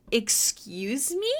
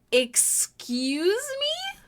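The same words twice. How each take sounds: First: Drawn-out mock outrage. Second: Amazed mock outrage; outraged stretched excuse me. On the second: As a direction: Excuse me? slow, soaring high on me. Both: Real, not acted. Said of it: "I hope you never say".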